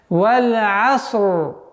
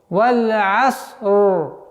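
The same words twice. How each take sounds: Both takes have the same delivery.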